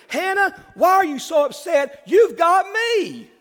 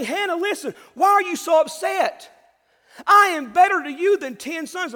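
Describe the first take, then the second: First: Higher and louder, proud husband bragging; hammed-up husband. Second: Higher and louder, pressing the point; insistent husband's shout. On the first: Husband Elkanah to sad wife Hannah, boastful and higher. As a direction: puff up like a husband showing off. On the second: Acted. Husband Elkanah urging Hannah, a loud shout. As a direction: call out to her as a pleading husband. Preacher voices Elkanah again.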